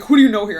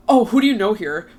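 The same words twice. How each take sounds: First: Louder, imitating an aggressive stranger's challenge; hammed-up pushy demand; mock aggressive. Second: A touch of a loud challenge, imitating the guy; mildly aggressive guy's demand; mock confrontational. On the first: Guy at Soho House coming up aggressively, loud mock challenge. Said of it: "like, aggressive energy". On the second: Stranger at the bar challenging her, mildly confrontational. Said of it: "sounded, like, mad confrontational".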